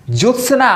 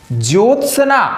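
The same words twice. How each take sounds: First: ज्योत्सना with a clear ज्यो; correct pronunciation. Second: ज्योत्सना said as जोत्सना; wrong pronunciation. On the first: Teacher giving the children the right ज्योत्सना. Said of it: "बिल्कुल सही है". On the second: Teacher showing the children the wrong ज्योत्सना. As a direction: say ज्योत्सना without the य glide. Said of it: "बिल्कुल गलत है". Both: Shown as a demonstration.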